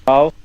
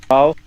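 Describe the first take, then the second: No difference in how they are said.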